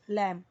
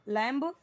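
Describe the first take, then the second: First: The word ends without a b sound. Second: The word ends with a full b sound. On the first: The speaker calls it right. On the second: The speaker calls it wrong.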